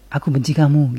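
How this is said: It sounds angry.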